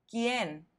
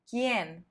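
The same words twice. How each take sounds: The two takes are said the same way.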